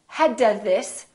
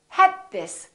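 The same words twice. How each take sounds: First: The d is released before the next word. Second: The d is held before the next word. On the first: The speaker calls it wrong. "don't say" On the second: The speaker calls it right.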